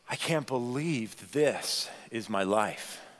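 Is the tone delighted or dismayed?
dismayed. The voice sounds discouraged and dismayed. Life feels disappointing or hard. "if we're honest with ourselves, sometimes too, we might say it this way"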